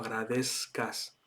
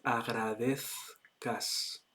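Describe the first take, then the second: First: The z is pronounced like an s sound. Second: The z is pronounced like a th sound. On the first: This is how a Mexican speaker says it. "supongo que será mexicano. Entonces, eh, agradezca sería un poco la forma eh, de pronunciarlo" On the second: This is how it is said in Spain. "en español de España, ... la forma correcta sería"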